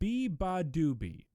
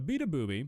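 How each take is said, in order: First: The name sounds like 'Biba Doobie'. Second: The name sounds like 'beat a booby'. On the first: The speaker calls it right. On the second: The speaker calls it wrong.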